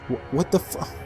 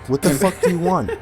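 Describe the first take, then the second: First: It is said as a frightened, faltering whimper. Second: It is said in an angry, commanding tone.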